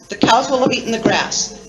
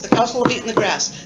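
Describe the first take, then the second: First: It is said at a slower pace. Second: It is said at a faster pace.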